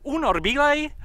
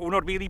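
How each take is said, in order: First: The word ends in a colloquial 'ej' sound. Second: The word ends in a standard long 'ee' sound.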